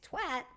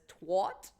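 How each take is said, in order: First: The vowel is unlike the one in water. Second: The vowel is like the one in water.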